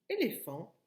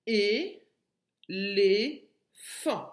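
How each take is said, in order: First: Said in the usual way. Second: "Et les fan" as three loud, separate syllables. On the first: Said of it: "enlèves la dernière syllabe fan". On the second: Shown as a demonstration. Teacher giving the answer, "Et les fan" split by syllable. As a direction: punch out "Et les fan" one syllable at a time. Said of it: "la dernière syllabe".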